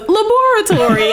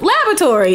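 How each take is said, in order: First: It is said in a British English way. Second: It is said in a non-British, American-sounding way. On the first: This is how the aunt says it. The speaker calls it right. "that's how you're supposed to say it in the English way" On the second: This is how the father says it. The speaker calls it wrong. "My dad screws it up and goes"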